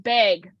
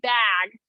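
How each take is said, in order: First: The vowel is raised, sounding close to 'beg'. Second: The vowel is open, as in 'bat'. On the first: This is how the speaker naturally says it. "the way that I say B A G" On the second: This is the form used on air for a wider audience. "on air, I do say bag"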